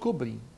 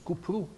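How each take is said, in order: First: The word is said with plain back vowels. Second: The word is said with rounded front vowels. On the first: This is how the Arabic spelling is read. The speaker calls it wrong. "In Turkish, it's not Kobri" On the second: This is the native Turkish pronunciation. The speaker calls it right. "it's Kupru. That's the correct pronunciation of the word"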